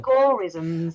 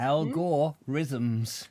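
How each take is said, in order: First: Algorithms with a stretched, rolled middle; drawn-out algorithms. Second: Algorithms dragged out, the r rolled; algorithms, slow and mock-grand. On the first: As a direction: say Algorithms as al-GOR-rithms. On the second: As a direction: stretch algorithms syllable by syllable. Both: Shown as a demonstration. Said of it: "repeating the word".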